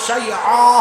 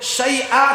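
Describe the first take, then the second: First: The word has a throaty pharyngeal sound. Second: The word has a plain glottal stop. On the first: A wrong letter replaces the right one, changing the meaning. The speaker calls it wrong. "হামজাকে আইন" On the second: This is the word as it should be read. The speaker calls it right. "ওই বগুড়ার ইমাম সাহেব তিনি পড়ছেন শাইআ কে"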